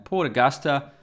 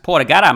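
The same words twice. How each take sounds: First: It is said in a plain accent. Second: It is said in a broad Australian accent.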